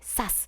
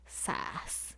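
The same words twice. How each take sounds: First: It is said as a sharp impact sound. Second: It is said with a pained, sympathetic tone.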